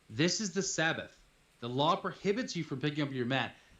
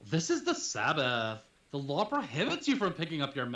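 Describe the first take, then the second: First: It is read in a normal voice. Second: It is said in a Valley Girl voice.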